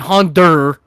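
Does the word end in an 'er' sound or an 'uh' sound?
er. The word ends in an 'er' sound. "they'll replace the A with an E R"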